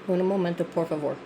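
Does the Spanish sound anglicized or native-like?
native-like. It is said with a more Spanish-sounding accent. The speaker calls it right. "is that better?"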